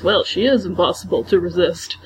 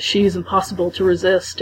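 First: "is" leaned on in "she is impossible to resist"; stress on IS. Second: Said in the usual way. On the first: Retold or imitated. Rachel hugging Anna and insisting, stress on "is". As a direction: hit the word "is" as if insisting. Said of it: "she goes". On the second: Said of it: "it says".

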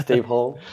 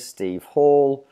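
First: Repeating Hall like hole, long o. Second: Hall said with an open aw sound, like hawl. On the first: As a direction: echo the corrected Hall, rhyming with goal. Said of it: "It's, uh, Steve Hall". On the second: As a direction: say Hall rhyming with ball. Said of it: "correct me if I've pronounced that wrong". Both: Shown as a demonstration.

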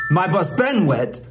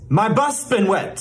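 First: "my bus been wet" with the weight on "been"; wrong stress on BEEN. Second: "my bus been wet" with "bus" pitched up; correct stress on BUS. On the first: Mock teacher shows another error, stressing "been". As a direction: lift and punch "been" as the mistaken beat. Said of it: "put the stress on the wrong syllable". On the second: Mock teacher gives the correct version, stressing "bus". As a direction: lean on "bus", then fall through "been wet". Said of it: "It's not". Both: Shown as a demonstration.

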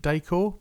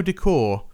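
First: Decor said as DAY-core; accented E in Decor. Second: Said in the usual way. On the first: Shown as a demonstration. Host guessing at the slashed E, Decor as "day-core". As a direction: say Decor with a long "ay" in the first syllable. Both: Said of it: "slashes on the E".

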